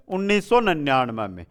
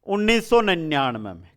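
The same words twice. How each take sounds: The two takes are said the same way.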